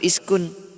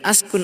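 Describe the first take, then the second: First: The word begins with the vowel i. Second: The word begins with the vowel a. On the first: "atau iskun" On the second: "Tidak mungkin askun"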